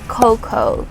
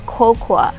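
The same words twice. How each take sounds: First: No extra vowel is sounded at the end. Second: An extra vowel is sounded at the end. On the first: The speaker calls it right. "you don't say the A at the end" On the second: The speaker calls it wrong. "we don't say cocoa"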